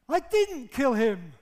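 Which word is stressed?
didn't. The stress is on "didn't".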